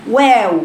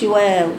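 First: «واو» بشفتين مضمومتين بإحكام; ضم شفتيك بوضوح في «واو»; ضم الشفتين. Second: «واو» متعبة بلا ضم محكم; انطق «واو» بشفتين مرتخيتين; واو رخوة. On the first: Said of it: "شوفوا بضم شفايفي ازاي". («واو» ممتلئة بضم الشفاه) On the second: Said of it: "ما بقولش". («واو» خاطئة بضم ضعيف) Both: Shown as a demonstration.

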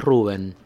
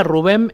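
First: "Rubén" as RU-ben, falling away on the E; no accent on E. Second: "Rubén" as ru-BEN, stress on the E; accented final syllable. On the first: Guest stating how his own name goes, "Rubén" said RU-ben. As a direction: stress the first syllable of "Rubén". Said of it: "Sin acento". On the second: Guest explaining the other version of his name, "Rubén" stressed ru-BEN. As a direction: land on the last syllable of "Rubén". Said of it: "es para los uruguayos". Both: Shown as a demonstration.

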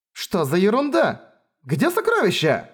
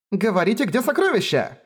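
First: High outraged question; indignant surprise. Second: High, pushy demand for the treasure; high insistent demand. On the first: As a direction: cry out in disbelief. Siblings find the chests empty. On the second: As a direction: pounce on them with the question. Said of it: "Напустилась она на Райнер с Феррис". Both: Acted.

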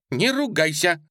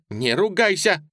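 First: High, louder scolding cry; exclaimed. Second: High, loud scolding blurt. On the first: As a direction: cry out the rebuke. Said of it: "воскликнула". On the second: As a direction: snap out the rebuke. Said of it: "выпалила". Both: A narrator's reading.

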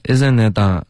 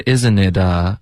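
First: "isn't it" with the end going into the nose; nasalized ending. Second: "isn't it" slow, with a clean oral ending; no nasal ending. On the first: Retold or imitated. Teacher copies student's slip, nasal-ended "isn't it". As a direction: let the tail of "isn't it" turn nasal. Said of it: "后面呢带了一点鼻音了". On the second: Shown as a demonstration. Teacher models for student, clean "isn't it". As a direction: keep the end of "isn't it" out of the nose. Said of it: "别带鼻音".

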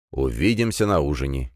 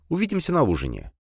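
First: Lower, steady "Увидимся на ужине" with weight on "Увидимся"; calm father. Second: Put-on high girlish "увидимся на ужине", falling off; young daughter. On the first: Father calmly answering his daughter, lower voice. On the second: Daughter saying goodbye to her father, higher girlish voice. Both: A narrator's reading.

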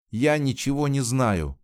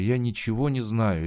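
First: Higher, sharp outburst; a girl's sudden desperate cry; cried out. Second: A touch of begging, a little higher; mild desperate plea; pleading. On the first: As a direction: burst out in desperation. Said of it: "вскрикнула Жанна". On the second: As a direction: plead helplessly for help. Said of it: "взмолилась Жанна". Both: A narrator's reading.

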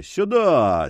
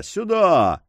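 First: Higher, ringing call of "Сюда!" with a falling end; booming call. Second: "Сюда!" pitched even higher and pushed harder, falling at the end; the second "Сюда!" rises above the first; louder repeated call. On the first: Forester summoning the dogs through the storm, ringing call. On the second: Forester calling the dogs again, more urgently. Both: A narrator's reading. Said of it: "крикнул зычным голосом".

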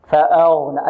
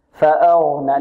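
First: فأغنى with lips rounded on the heavy ghayn. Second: فأغنى with heavy ghayn from the throat, lips unrounded; heavy "gh" without rounding in فأغنى. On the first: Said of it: "البعض يعتمد على الشفتين في التفخيم". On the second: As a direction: keep lips relaxed on the غ of فأغنى. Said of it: "لا، بدون ضم الشفتين". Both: Shown as a demonstration.

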